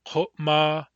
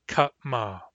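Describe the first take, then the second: First: Kotma, said precisely with a back-of-the-throat Q and a U vowel; careful Q and U. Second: Katma, said precisely with a plain K and open A; careful K and A. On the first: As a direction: Kotma with uvular Q, rounded first vowel. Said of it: "Kotma has a Q and a U". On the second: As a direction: make katma distinct with K and an unrounded first vowel. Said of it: "Katma has a K and an A". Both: Shown as a demonstration.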